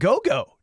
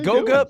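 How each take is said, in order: First: The name ends in an 'o' sound. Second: The name ends in an 'a' sound. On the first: The speaker calls it wrong. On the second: The speaker calls it right.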